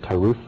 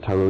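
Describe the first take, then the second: First: The word ends in a soft th sound. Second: The word ends in a plain t sound.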